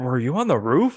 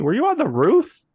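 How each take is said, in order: First: It is said in a lower voice. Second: It is said in a higher voice.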